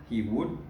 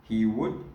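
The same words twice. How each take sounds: The two takes are said the same way.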